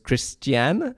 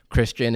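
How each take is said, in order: First: It is said in an Italian accent. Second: It is said in a plain English accent.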